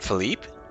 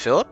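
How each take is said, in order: First: The name is said in a French-sounding way. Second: The name is said in a plain English way. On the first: The speaker calls it wrong. "as if he's trying to speak in a vaguely French manner" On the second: The speaker calls it right. "It's Philip"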